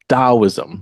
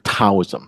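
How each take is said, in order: First: The word begins with a D sound. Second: The word begins with a T sound. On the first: This is how native Chinese speakers say it. "we Chinese people pronounce it Taoism ... we actually pronounce it with, with a D" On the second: This is how early European visitors heard it. "But they heard Taoism. So Europeans heard T"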